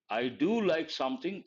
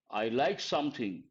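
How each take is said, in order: First: "do" stressed, the rest plain. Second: Said in the usual way. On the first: Shown as a demonstration. Teacher showing the emphatic form, stressing "do". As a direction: lean on the word "do" for emphasis.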